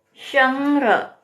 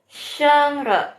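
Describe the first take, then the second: First: Sheng Re repeated higher; Mandarin Sheng Re. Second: Sheng Re higher, first tone; Mandarin Sheng Re. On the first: Teacher repeats the word for the class, higher. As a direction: say Sheng Re again, pitched up. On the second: Teacher models a first-tone word for viewers, higher. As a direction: pitch Sheng Re up and hold it. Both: Shown as a demonstration. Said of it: "nadanya nada satu".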